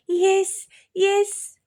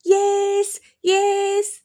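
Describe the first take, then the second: First: Put-on high, loud children's shout; loud kids. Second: High, loud sing-song yelling; sing-song shout. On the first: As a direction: yell it together like excited kids. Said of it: "అన్నారు ఇద్దరు గట్టిగా". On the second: Acted. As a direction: chant it loud into her ear. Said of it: "గట్టిగా అరవడం మొదలుపెట్టారు".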